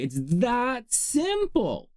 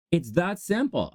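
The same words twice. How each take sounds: First: "simple" high and drawn out; slow, high stress on "that simple"; emphatic drawl. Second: Said in the usual way. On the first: Real, not acted. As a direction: stretch "that simple" slowly, pitched up. Drawn-out emphatic first take.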